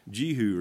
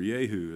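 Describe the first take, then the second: First: "Jehu" pronounced ZHEE-hoo; "Jehu" with a French-like zh, ZHEE-hoo; one pronunciation. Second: "Jehu" said YAY-hoo with a Y sound; "Jehu" as YAY-hoo, playfully preferred; "Jehu" pronounced YAY-hoo, his pet version; his own pronunciation. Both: Shown as a demonstration. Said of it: "as I like to call him".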